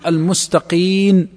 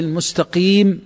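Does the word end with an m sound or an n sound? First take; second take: n; m. First: The word ends with an n sound. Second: The word ends with an m sound. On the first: The speaker calls it wrong. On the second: The speaker calls it right.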